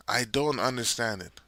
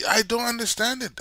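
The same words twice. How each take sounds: First: Said in the usual way. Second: Exasperated. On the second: Real, not acted. Exasperated at coach's choices.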